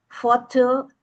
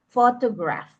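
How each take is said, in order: First: Photo said higher and louder, PHO punched; stress on PHO. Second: Said in the usual way. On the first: Shown as a demonstration. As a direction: lean hard on the first syllable of photo. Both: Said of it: "take note of the stress by placing the stress on the word syllable".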